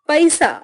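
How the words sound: It is said with an Eastern UP regional accent. "पूर्वी उत्तर प्रदेश उच्चारण"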